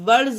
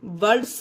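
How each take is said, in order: First: The final s sounds like z. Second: The final s sounds like s. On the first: The speaker calls it right. "D के बाद एस आएगा तब भी जा पढ़ेंगे" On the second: The speaker calls it wrong. "वर्ड्स नहीं होता है गाइस"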